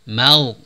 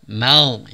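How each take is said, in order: The two takes are said the same way.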